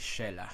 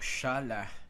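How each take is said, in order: First: The first vowel sounds like 'eh'. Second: The first vowel sounds like 'ah'. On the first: It is the ordinary form of the name. "It is actually Shelah, the name Shelah" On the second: It marks a pause or emphasis in the verse. "Shalah is the pausal form"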